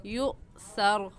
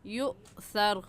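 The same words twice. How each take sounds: The two takes are said the same way.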